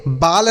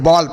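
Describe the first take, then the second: First: "बाल" with a long aa, as baal; wrong long-AA vowel. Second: "बॉल" with an open aw, as bawl; correct AW vowel. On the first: Teacher telling children how not to read ball, "बाल" as baal. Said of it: "बाल नहीं पढ़ते हैं". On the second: Teacher giving children the right reading, "बॉल" as bawl. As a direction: say "बॉल" with the vowel of English ball. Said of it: "बॉल पढ़ते हैं". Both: Shown as a demonstration.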